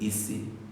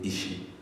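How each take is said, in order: First: The middle consonant is an s sound. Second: The middle consonant is an sh sound. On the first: "Some people will say Isi" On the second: "some will say Ishi"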